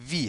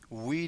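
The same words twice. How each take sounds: First: It begins with a v sound. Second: It begins with an English-like w sound. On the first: The speaker calls it right. "وی هست، همون وی خودمون" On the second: The speaker calls it wrong. "مثل انگلیسی تلفظ نکنید. وی وی نیست"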